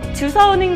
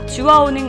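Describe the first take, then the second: First: The second syllable begins with an s sound. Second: The second syllable begins with a w sound. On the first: This is a dialect or old form. The speaker calls it wrong. "아니라" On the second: This is the standard form. The speaker calls it right. "올바른 표현입니다"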